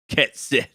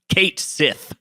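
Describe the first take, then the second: First: The first word has a short e vowel. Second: The first word has a long a vowel. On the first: This is how the character says it in his Gaelic accent. "says it a little bit like Ket Sith" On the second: This is how the other characters say it. "they just call him Kate Sith"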